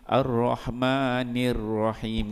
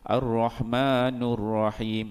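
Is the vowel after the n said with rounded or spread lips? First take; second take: spread; rounded. First: The vowel after n is an i with spread lips. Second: The vowel after n is a u with rounded lips. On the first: The speaker calls it right. "Sepatutnya Ar-Rahmanir Rahim. Ni dia kena tarik mulut" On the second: The speaker calls it wrong. "bila dia baca dengan nu, dia akan muncungkan ... muncungkan mulut"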